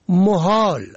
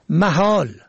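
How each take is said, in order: First: The first vowel is o, as in mohal. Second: The first vowel is a, as in mahal. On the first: It is the plural of place. "به ضم اول" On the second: It means impossible. "به فتح اول"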